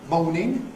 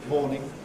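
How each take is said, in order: First: The vowel glides as a diphthong. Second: The vowel is a single close vowel. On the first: "in Broad Cockney, a kind of diphthong" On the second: "a rather close monophthong"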